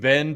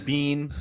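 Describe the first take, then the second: First: The word does not sound like 'bean'. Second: The word sounds like 'bean'. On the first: "like we've been bad" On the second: "It's always Bean, like mister Bean"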